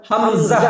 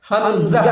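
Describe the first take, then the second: The two takes are said the same way.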